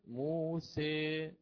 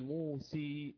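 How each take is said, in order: First: The final vowel is an 'a' leaning toward 'ee'. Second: The final vowel is a full 'ee' sound. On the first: The speaker calls it right. "بل قلت موسي سي، بقيت على الفتحة نعم، ولكن قربت من الكسرة" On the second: The speaker calls it wrong. "لم آتي بالألف أبدلتها بياء، لم أقل موسي هكذا"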